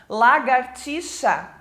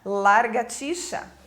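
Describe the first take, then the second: First: The r sound comes after the second a. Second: The r sound comes after the first a. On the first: The speaker calls it right. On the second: The speaker calls it wrong.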